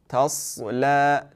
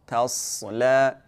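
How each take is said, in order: Both takes have the same delivery.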